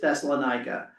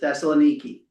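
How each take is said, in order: First: The name ends with a 'kuh' sound. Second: The name ends with a 'kee' sound. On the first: This is the English form of the name. "the English version usually is Thessalonica" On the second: This is the Greek form of the name. "how you pronounce it in Greek is Thessaloniki"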